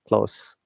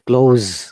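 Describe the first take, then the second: First: The s is unvoiced, sounding like s. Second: The s is voiced, sounding like z. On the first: It is not used as a verb. "the S sounds like S, simple" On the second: It is used as a verb. "Remember the S sounds once again as Z"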